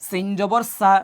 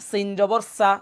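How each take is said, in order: The two takes are said the same way.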